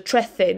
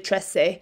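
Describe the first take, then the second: First: The c is pronounced as a th sound. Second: The c is pronounced as an s sound. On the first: "you say that as a th sound, as if you were going to say the in English" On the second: "If you're in South America, for example, they don't th the soft C sound"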